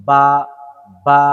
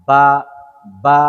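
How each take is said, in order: Both takes have the same delivery.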